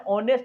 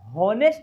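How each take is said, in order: First: The word begins with a vowel sound. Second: The word begins with an h sound. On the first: The speaker calls it right. "क्या बोलते हैं?" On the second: The speaker calls it wrong. "होनेस्ट नहीं बोलते हैं"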